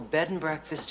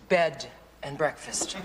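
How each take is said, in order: First: The stress falls normally, on breakfast. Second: The stress falls heavily on bed. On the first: It is just a place to stay. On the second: The weekend implies sleeping together.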